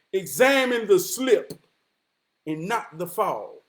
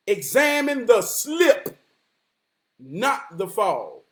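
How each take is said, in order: First: Said in the usual way. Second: Slow, weighty repeat of the proverb; slow emphatic repeat. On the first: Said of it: "It's an African proverb that says". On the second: Shown as a demonstration. Repeating the proverb slowly to the listener, weighty. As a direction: let each word land slowly.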